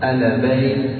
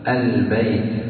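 First: The lam is released with an echoing bounce. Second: The lam is held briefly without any bounce. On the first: The speaker calls it wrong. "فإذا لم تحبسها قلقلتها" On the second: The speaker calls it right. "ولما كانت ساكنة سيكون زمنها أطول قليلا من الحرف المتحرك"

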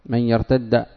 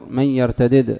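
First: The two d sounds merge into one long d. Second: The two d sounds are split by a vowel. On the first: This is the form used outside the Hijaz. "الجمهور على لغة غير الحجازيين" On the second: This is the form used in the Hijaz. "ونافع وابن عامر من يرتدد"

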